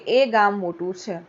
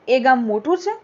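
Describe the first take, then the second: First: It is said as a plain statement. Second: It is said as a question.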